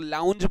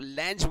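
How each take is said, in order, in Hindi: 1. स्वर 'cow' जैसा सुनाई देता है। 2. स्वर 'cat' जैसा सुनाई देता है। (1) "लेकिन लोग लाउंज बोलते हैं उसको" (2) "जिसको लैंच बोला जाता है"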